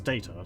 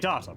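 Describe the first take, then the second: First: The name uses an American pronunciation. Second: The name uses a British-style pronunciation. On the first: "his name is the American pronunciation" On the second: "I would say Data, because... Australian English, British English"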